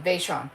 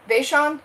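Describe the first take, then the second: First: "Vaishon" said firmly with a falling close, VAY-shon; "Vaishon" stated as the final answer; name settled. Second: "Vaishon" asked with a raised, questioning rise, VAY-shon; checking the name "Vaishon" aloud, voice lifting at the end; "Vaishon" tried as an unsure question; trying out a name. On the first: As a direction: repeat "Vaishon" to fix it in memory, tune dropping. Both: Shown as a demonstration. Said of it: "your name's pronounced Vaishon?".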